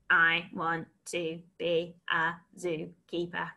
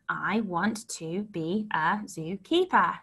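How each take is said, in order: First: It is spoken in a flat robotic voice. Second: It is spoken in a normal voice. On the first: "And robot it" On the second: "So let's say it"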